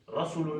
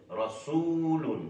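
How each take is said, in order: First: रसूलुन with no hold on the oo; wrong short vowel. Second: रसूलुन with सू drawn out into a long oo; correct long vowel. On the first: Teacher shows the class how not to read it, short सू in रसूलुन. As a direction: say रसूलुन quickly with a short, unstretched सू. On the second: Teacher corrects the short reading for students, long held सू in रसूलुन. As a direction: hold the oo of सू in रसूलुन, higher pitch. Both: Shown as a demonstration. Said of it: "नहीं पढ़ते".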